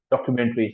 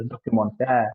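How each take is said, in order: First: Documentary ending in a clear EE; Documentary as an English cue word; English pronunciation. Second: Documentaire ending in an AIR sound; French pronunciation. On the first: Teacher contrasts English and French word. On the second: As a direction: say documentaire as doh-kü-mon-TAIR. Teacher gives the French form. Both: Shown as a demonstration.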